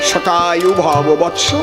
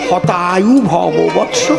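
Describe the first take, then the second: First: The first word begins with an s sound. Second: The first word begins with an h sound. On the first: May you live a hundred years. The speaker calls it right. "এর সংস্কৃত কি?" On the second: May your life be cut short. The speaker calls it wrong. "ওনার তো স উচ্চারণ হয় না, উনি বলেছেন"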